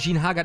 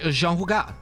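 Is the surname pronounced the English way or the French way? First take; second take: English; French. First: The surname is pronounced with English sounds. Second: The surname is pronounced with French sounds.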